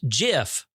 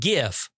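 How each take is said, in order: First: The word begins with a soft J sound. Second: The word begins with a hard G sound. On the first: The speaker calls it right. "it is pronounced GIF, ... just like the peanut butter" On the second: The speaker calls it wrong. "not GIF, you motherfuckers"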